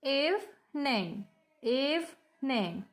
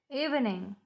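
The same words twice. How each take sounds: First: EVENING slowly broken in two, eve-ning, each time; split into syllables. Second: Said in the usual way. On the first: Shown as a demonstration. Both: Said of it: "We have two syllable and evening".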